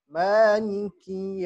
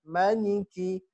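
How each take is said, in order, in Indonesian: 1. Vokal pertama dibaca panjang. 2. Vokal pertama dibaca pendek. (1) "Bacanya pan, panjang" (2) "Tapi kalau pendek, maliki raja"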